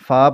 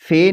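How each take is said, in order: First: The letter name ends in an 'a' vowel. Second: The letter name ends in an 'e' vowel. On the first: This is the Arabic way of naming the letter. The speaker calls it right. "पढ़ना है" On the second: This is the Urdu way of naming the letter. The speaker calls it wrong. "नहीं"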